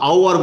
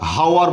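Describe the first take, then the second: First: The word begins with a vowel sound. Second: The word begins with an h sound. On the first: The speaker calls it right. "উচ্চারণ ভিত্তিতে আমরা এটাকে আওয়ার বলবো" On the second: The speaker calls it wrong. "আমরা হাওয়ার বলি না"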